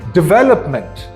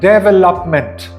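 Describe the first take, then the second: First: The stress is on the second syllable. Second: The stress is not on the second syllable. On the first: The speaker calls it right. "with the second syllable being stressed the most" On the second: The speaker calls it wrong. "pronounced by many people as"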